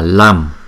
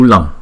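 First: The syllable is said with a plain 'am' ending. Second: The ending falls between an 'm' and 'ng'. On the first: The speaker calls it wrong. "Chữ này không phải là Lam" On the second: The speaker calls it right. "Nó giữa chữ M và chữ ng á"

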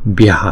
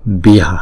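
No difference in how they are said.

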